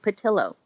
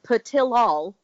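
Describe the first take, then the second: First: The name's ending rhymes with pillow. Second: The name's ending does not rhyme with pillow. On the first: This is how the makers said the name. "they said it's like pillow" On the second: This is how the name looks when read. "if you look at it, it's like Patilol"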